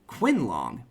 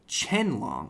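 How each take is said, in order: First: The name begins with a kw sound. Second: The name begins with a ch sound. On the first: The speaker calls it wrong. "I want to pronounce it like Quinlong" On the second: The speaker calls it right. "but no, it's Chenlong"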